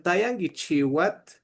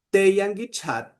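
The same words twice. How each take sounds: First: Tayangichiwat opening on tay, ending chi-wat; Santo Domingo form. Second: Teyangichat opening on tey, ending chat; Izalco form. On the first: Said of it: "no decían". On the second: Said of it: "allá decían". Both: Shown as a demonstration.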